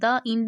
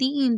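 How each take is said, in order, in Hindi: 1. 'The' को छोटे 'thuh' स्वर के साथ बोला जाता है। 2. 'The' को लंबे 'thee' स्वर के साथ बोला जाता है। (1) "द इंड नहीं होता" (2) "दी इंड होता है"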